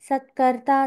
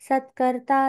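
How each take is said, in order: No difference in how they are said.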